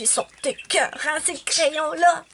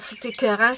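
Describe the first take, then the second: First: It sounds delighted, as if something is amazing. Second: It sounds disgusted, as if something is gross.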